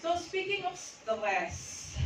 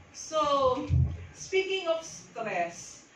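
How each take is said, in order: First: Slow, high and stretched; drawn-out opener. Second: Slow and high, stretched; drawn-out opener. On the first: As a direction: stretch it out to hook them. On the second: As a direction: hook the listeners slowly. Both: Shown as a demonstration.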